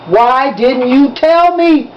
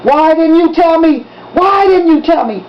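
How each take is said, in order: First: Drawn-out, heavy demand; slow demand. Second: Furious demand. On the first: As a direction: drag each word out, accusing. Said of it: "he demanded". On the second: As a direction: hammer the question at him. Drunk father confronting son. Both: A narrator's reading.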